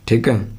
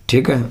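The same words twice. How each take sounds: No difference in how they are said.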